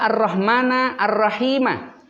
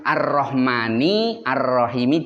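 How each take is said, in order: First: Both words end with an a vowel. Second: Both words end with an i vowel. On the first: The words are objects of an omitted verb. "Karena maf'ul jadi nasab" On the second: The words are in the genitive case. "jar-jar namanya"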